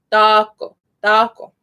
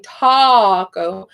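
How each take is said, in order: First: "taco" with open A, slightly toward O; Spanish A. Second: "taco" with drawn-out "aw" vowel; too-round O-like A. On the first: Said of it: "closer to an O, but not quite". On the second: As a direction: overdo the A in "taco" toward an O. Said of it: "I'm not saying". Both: Shown as a demonstration.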